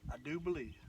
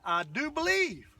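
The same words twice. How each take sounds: First: Much softer and lower; quiet echo. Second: "I do believe" high and drawn out; emphatic declaration. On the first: Angler repeating his theory to himself, quiet and low. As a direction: drop it to a low aside. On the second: Angler declaring his weather theory, stretching "I do believe". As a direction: proclaim "I do believe" slowly, up high. Emphatic first take, then quiet echo. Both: Real, not acted.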